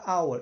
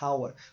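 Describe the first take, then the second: First: The word starts with a vowel, no h. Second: The word starts with an audible h sound. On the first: The speaker calls it right. "você fala hour. Então ele está só presente aqui, mas ele não tem som nenhum" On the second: The speaker calls it wrong. "Você está pronunciando ele como em hotel? Não, porque você não fala hour"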